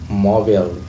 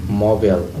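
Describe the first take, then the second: The two takes are said the same way.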